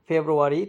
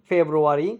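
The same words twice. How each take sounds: The two takes are said the same way.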